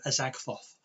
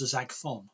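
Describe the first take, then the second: First: The word ends with a 'th' sound. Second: The word ends with an 'n' sound. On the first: This is the intended word. The speaker calls it right. "the word Azagthoth" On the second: This is a much more powerful word. The speaker calls it wrong. "I mispronounced ... It came out as Azagthon"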